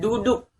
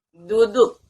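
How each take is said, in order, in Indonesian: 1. Bunyi d dibuat dengan cara Indonesia. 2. Bunyi d dibuat dengan cara Arab. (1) "Berbeda dengan"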